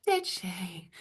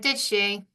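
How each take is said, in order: First: "Did she?" repeated much softer and understated; hushed retelling of "Did she?". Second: "Did she?" with a sceptical, disapproving tone; doubtful "Did she?". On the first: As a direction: drop "Did she?" to a quiet aside. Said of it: "what I didn't say was quite loud". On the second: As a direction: let the tone of "Did she?" show you don't believe it. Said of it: "the tone of voice and the way you say things". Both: Retold or imitated.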